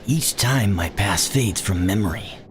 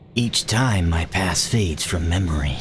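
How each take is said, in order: First: It is read in a put-on narrator voice. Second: It is read in his ordinary plain voice.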